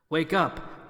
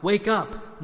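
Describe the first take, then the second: First: Said in the usual way. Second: Louder wake up. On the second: Acted. King rouses the stunned friends, Wake up! called louder.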